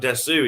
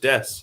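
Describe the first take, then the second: First: The final u vowel is clearly pronounced. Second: The final u vowel is dropped. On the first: The speaker calls it wrong. "but it's not desu" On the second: The speaker calls it right. "It's just des"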